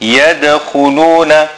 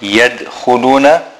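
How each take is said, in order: First: The d sound has an echoing bounce. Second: The d sound has no bounce. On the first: The speaker calls it right. "Qalqala on the dal" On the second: The speaker calls it wrong. "Not yadkhuluna"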